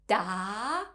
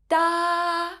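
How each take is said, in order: First: The pitch rises from middle to high. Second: The pitch stays high and level. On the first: "has a rising tone" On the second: "is a high flat tone"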